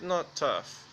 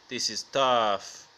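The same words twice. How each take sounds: First: Said in the usual way. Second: Slow, low street-tough delivery; mock tough talk. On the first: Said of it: "You see me talking on the internet". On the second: Shown as a demonstration. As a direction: drag it out low, playing the hard man. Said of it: "I talk real tough in streets".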